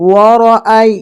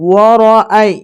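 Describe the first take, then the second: Both takes have the same delivery.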